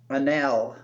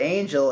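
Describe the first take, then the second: First: The G sound is left out entirely. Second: The G sound is pronounced in the middle. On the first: "The G might be silent" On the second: "maybe it's not actually angel"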